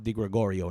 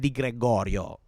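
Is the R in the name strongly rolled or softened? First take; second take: softened; rolled. First: The R sounds are softened, not rolled. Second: The R sounds are fully rolled, Italian style. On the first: This is a lighter, half-measure pronunciation. "I'm just not pronouncing the R, but I'm putting the emphasis on the rest of the name correctly" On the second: This is the full native pronunciation. "I don't know that I would say Michele Di Gregorio every single time. It's a little, a little much"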